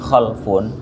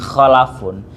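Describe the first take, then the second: First: The l is followed directly by f, no vowel. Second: An a vowel comes between the l and f. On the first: Bad descendants. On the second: Good descendants. "di fathah jadi khalafun"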